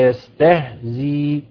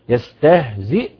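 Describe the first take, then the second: First: The word ends with a long 'ee' vowel. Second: The word ends with a glottal stop.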